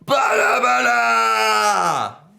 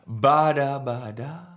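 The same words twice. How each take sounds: First: It is said very loudly. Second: It is said softly.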